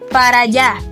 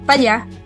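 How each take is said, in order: First: Each word is said fully and separately. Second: The words are reduced and run together. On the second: "start listening for chunks"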